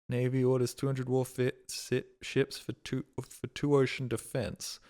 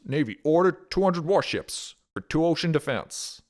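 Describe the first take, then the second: First: It is read in his normal voice. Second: It is read in a nasal 1940s newsreel voice.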